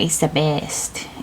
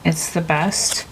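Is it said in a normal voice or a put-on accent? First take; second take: put-on accent; normal voice. First: It is said in a Nacho Libre character accent. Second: It is said in the speaker's normal voice.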